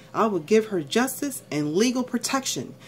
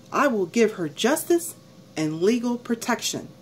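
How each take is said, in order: The two takes are said the same way.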